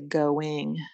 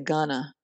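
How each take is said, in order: First: It is pronounced formally, every sound clear. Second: It is pronounced casually, as American gonna.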